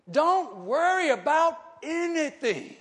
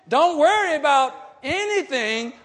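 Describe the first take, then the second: First: "Don't worry about anything" drawn out slowly, each word weighted; measured pulpit emphasis; emphatic slow reading. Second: "Don't worry about anything" thrown out loud with a push on worry; rising pulpit shout; louder preached repeat. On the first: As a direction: lay the verse down slowly and deliberately. Slow first reading of verse. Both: Acted.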